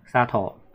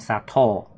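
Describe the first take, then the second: First: The word is said flat with no accent. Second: The word has an accent on its second part. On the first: It is the family name Satō. "砂糖是平音" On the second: It means sugar. "糖的话是重音"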